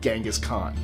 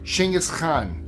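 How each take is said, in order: First: It is said the American way. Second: It is said the Mongolian way.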